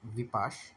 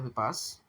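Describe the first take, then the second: First: The word ends with an sh sound. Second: The word ends with a plain s sound. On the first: The speaker calls it right. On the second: The speaker calls it wrong.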